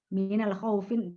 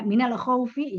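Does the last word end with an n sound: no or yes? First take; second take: yes; no. First: The last word ends with an added n sound. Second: The last word ends without an n sound. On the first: The speaker calls it wrong. "bukan minal khaufin tidak ya" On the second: The speaker calls it right. "khaufi bukan minal khaufin"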